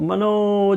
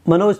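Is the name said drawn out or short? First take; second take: drawn out; short. First: The name is called out with a long vowel. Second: The name is said short and plainly. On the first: "जब मैं बहुत दूर हूँ तो मनोज, इस तरह से जो बुलाया जाता है" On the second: "मनोज थोड़ा ना बोलेंगे"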